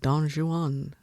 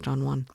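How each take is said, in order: First: The word Juan is said in two syllables. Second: The word Juan is said in one syllable. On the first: The speaker calls it right. "It's two syllables" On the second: The speaker calls it wrong. "I thought it was Don Juan. It's not"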